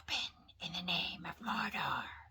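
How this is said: The voice is thin and whispery. The speaker calls it right. "is it whispery? ... That works"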